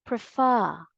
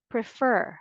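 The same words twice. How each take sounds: First: "prefer" as prih-FAH, final r dropped; British pronunciation. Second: "prefer" as prih-FUR, final r sounded; American pronunciation. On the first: Teacher naming the British form, "prefer" as prih-FAH. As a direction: stress an open FAH ending in "prefer". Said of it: "British English is prefer". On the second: Teacher naming the American form, "prefer" as prih-FUR. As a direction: stress the r-coloured ending of "prefer". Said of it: "American English". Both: Shown as a demonstration.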